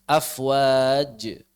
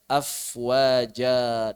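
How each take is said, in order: First: The word ends in a bare consonant. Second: The word ends in a long a vowel. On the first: This is acceptable only in ordinary Arabic. The speaker calls it wrong. "masih benar kalau kita membacanya sukun" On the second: This is how it is read in the Quran. The speaker calls it right. "harus khaira"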